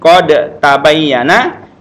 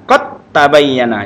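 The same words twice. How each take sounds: First: The d is pronounced before the t. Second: The d merges into a doubled t.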